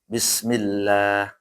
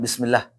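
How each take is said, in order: First: The vowel in Allah is drawn out longer. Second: The vowel in Allah is cut short. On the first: The speaker calls it right. "dibaca panjang sedikit ya" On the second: The speaker calls it wrong.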